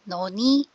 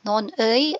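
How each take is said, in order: First: The final syllable is said as plain 'i'. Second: The final syllable is said as 'ui'.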